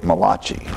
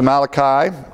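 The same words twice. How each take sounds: First: The name is said with an Italian-sounding pronunciation. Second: The name is said with a plain English pronunciation. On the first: The speaker calls it wrong. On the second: The speaker calls it right.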